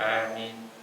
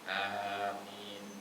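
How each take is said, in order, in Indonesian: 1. Vokal pertama hanya diucapkan sebentar. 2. Vokal pertama adalah a yang biasa, lebih panjang. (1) "Ada yang logatnya pendek, aminnya cuma dua harakat" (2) "yang biasa dibaca sama orang umumnya"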